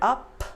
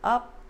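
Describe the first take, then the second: First: The final P is released with a puff of air. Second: The final P is held without releasing air. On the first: "Instead of up" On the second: "no air release"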